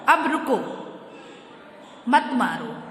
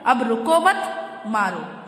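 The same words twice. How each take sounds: First: The pause comes after "रुको". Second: The pause comes after "मत".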